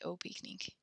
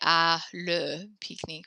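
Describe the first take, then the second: First: One contracted word, au, comes before pique-nique. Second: Two separate words, à and le, come before pique-nique. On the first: The speaker calls it right. "we have to say au pique-nique" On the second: The speaker calls it wrong. "we can't say à le pique-nique"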